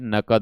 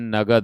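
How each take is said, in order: First: The middle consonant is a voiceless k sound. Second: The middle consonant is a voiced g sound. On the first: This is the proper form of the word. The speaker calls it right. "लेकिन होता क्या है, नकद होता है" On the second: This is how people commonly say it. The speaker calls it wrong. "हम लोग बोलते हैं नगद"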